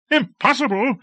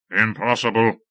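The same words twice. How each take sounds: First: Very high outraged question; incredulous cry. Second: Said in the usual way. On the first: A narrator's reading. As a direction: throw the word back in disbelief. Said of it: "cried Lord Fayed". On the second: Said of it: "Impossible? cried Lord Fayed".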